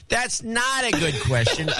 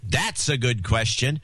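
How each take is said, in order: First: High, slow John C impression. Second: Said in the usual way. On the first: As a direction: yell it like John C. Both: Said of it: "in my best John C voice".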